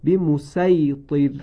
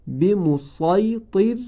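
First: به مسیطر slow with light s; recited with sin. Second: به مسیطر slow with emphatic sad, a bit higher; recited with sad. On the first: Teacher demonstrates second reading, slow chant. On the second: Teacher demonstrates first reading, slow chant. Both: Shown as a demonstration.

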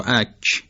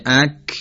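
First: "اک" with a fronted, palatal k; Persian palatal kaf. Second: "اک" with a hard back k; Arabic kaf. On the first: Teacher contrasting two kaf sounds, Persian mid-mouth k in "اک". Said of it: "نه اونی که از میانهٔ دهان". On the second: Teacher contrasting two kaf sounds, Arabic back k in "اک". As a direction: end "اک" on a velar k from the back of the mouth. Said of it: "یعنی اونی که از ابتدای دهان". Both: Shown as a demonstration.

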